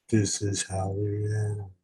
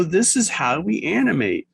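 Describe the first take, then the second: First: Low, soft put-on voice; mock-solemn echo. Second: Said in the usual way. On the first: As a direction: echo it as a hushed, deeper aside. Echoes own line in put-on voice.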